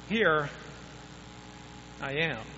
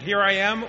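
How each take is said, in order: First: It is said in a hesitant, unsure tone. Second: It is said in a confident, assured tone. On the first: The speaker is reluctant and doubtful. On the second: The speaker is ready and willing to go.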